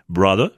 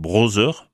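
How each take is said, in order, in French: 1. La consonne du milieu ressemble à un d. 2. La consonne du milieu ressemble à un z. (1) "la bonne prononciation anglaise de ces mots est" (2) "on entend trop souvent un Z alors qu'on attend un D"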